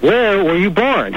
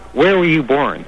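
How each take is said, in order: First: It is asked in an angry tone. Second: It is asked in a stern tone.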